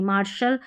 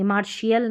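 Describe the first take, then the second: First: मार्शल said as mar-shal, two syllables; मार्शल with a plain sh and no ee; मार्शल said as mar-shal, shown as right; correct pronunciation. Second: मार्शियल said as mar-shee-al, the way to avoid; मार्शियल with an extra shee syllable; मार्शियल stretched into three syllables, shown as wrong; wrong pronunciation. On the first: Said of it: "मार्शल पढ़ेंगे". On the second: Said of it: "मार्शियल नहीं". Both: Shown as a demonstration.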